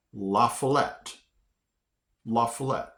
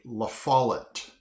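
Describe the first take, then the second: First: La Follette said LAH-fuh-LET; guessed pronunciation. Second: La Follette said luh-FAH-lut; actual pronunciation. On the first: His guess at the next town, La Follette as LAH-fuh-LET. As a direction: end La Follette on a clear LET. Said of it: "I would have pronounced". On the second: Teaching the actual name, La Follette as luh-FAH-lut. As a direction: stress FAH in La Follette, weak last syllable. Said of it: "But it's actually". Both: Shown as a demonstration.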